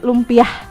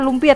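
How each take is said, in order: First: The word ends with an added h sound. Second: The word ends on a plain vowel. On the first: "orang Sunda biasanya suka pakai h" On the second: "bukan lumpia"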